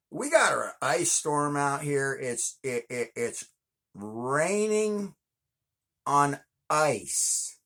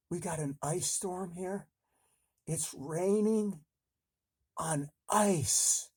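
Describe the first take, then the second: First: Said in the usual way. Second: High, hammed-up frightened whine; mock scared voice. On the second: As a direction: fake panic about the weather. Scared hiding under bed.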